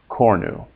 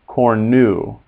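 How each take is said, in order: First: The stress is on the first syllable. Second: The stress is on the second syllable. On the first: The speaker calls it right. "the accent is always on the first syllable" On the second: The speaker calls it wrong. "It's not cornu"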